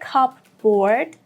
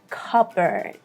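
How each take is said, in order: First: The P is sounded; second part sounds like 'board'. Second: The P is silent; second part sounds like 'bird'. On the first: The speaker calls it wrong. "Don't say cupboard" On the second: The speaker calls it right. "We do not pronounce P here at all"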